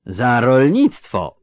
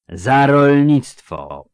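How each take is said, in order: First: Slowly called-out explanation, louder; volunteer the answer loudly, drawing it out; eager explaining. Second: „rolnictwo” drawn out long, loud and higher; emphatic repeat. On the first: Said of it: "pospieszył z wyjaśnieniem". (skwapliwe, głośne wyjaśnienie) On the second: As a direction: lean hard on „rolnictwo”, stretching it slowly. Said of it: "powtórzył z naciskiem grubas". (z naciskiem na „rolnictwo”, głośno i przeciągle) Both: A narrator's reading.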